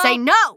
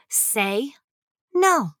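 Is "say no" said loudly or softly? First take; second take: loudly; softly. First: It is said loudly and forcefully. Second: It is said at a calm, normal volume.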